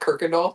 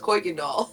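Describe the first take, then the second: First: The first syllable has an R sound. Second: The first syllable has no R sound. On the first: This is how locals from the area say it. "if you're from Houston, you'll probably pronounce it as Kirkendall" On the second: This follows how the name is spelled. "There is no R in Kirkendall. It's Kuykendall"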